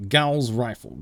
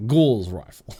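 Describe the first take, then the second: First: "Gauss" with an ow vowel before rifle; Gauss like house. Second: "Gauze" with a long aw vowel before rifle; Australian Gauze. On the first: Streamer comparing rifle names, "Gauss" like house. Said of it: "Gauss like house". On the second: Streamer comparing rifle names, "Gauze" with aw. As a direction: say "Gauze" with aw, not ow. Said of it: "it's in an Australian accent". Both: Shown as a demonstration.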